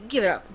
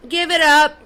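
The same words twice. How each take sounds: First: Said in the usual way. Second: "Give it up" pushed louder, stress on "it"; second "Give it up" thrown harder. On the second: Real, not acted. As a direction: snap it out the second time. Mocking dismissal, said twice.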